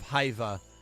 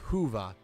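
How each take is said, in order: First: The first vowel sounds like 'eye'. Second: The first vowel sounds like 'oo'. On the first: The speaker calls it wrong. "instead of Haiva" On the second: The speaker calls it right. "the Y is pronounced like a U"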